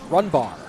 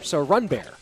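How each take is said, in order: First: The second syllable sounds like bar. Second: The second syllable sounds like bear.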